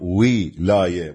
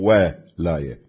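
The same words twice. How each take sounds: First: The first vowel is i, as in wilaya. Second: The first vowel is a, as in walaya. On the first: It means authority or rule. "الولاية بالكسر" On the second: It means support or help. "مو ولاية"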